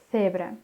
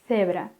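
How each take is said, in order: The two takes are said the same way.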